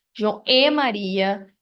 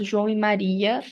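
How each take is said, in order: First: Slow down and lean on the "e" between João and Maria; João E Maria, the linking "e" stressed. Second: Said in the usual way. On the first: Shown as a demonstration. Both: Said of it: "falamos também sobre a conjunção".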